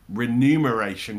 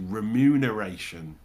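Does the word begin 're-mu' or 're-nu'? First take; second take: re-nu; re-mu. First: The word begins with re-nu, like numbers. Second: The word begins with re-mu, m before n. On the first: The speaker calls it wrong. "But I always say remuneration because that sounds like it makes more sense" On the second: The speaker calls it right. "I think it's meant to be remuneration"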